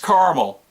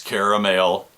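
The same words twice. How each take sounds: First: It is said the northern way, two syllables. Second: It is said the southern way, three syllables.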